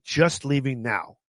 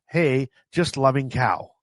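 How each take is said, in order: First: "just leaving now" read slowly and plainly; intended text read out. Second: "Hey, just loving cow" read slowly, word by word; garbled text read out. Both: Shown as a demonstration. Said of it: "what I actually said is".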